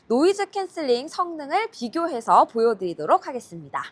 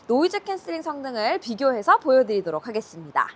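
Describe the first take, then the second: First: Background noise is strongly removed; voice may sound muffled. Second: Background noise is partly reduced behind the voice. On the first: "현재 모드는 노이즈 캔슬링 강한 모드입니다" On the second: "현재 모드는 노이즈 캔슬링 기본 모드입니다"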